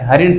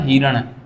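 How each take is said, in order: First: The first syllable has the vowel a. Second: The first syllable has the vowel i. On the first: The speaker calls it right. "हरिण शब्द शुद्ध है" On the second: The speaker calls it wrong. "वो हिरण शब्द गलत है"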